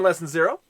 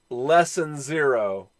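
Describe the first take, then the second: First: It is said at normal speed. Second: It is said slowly.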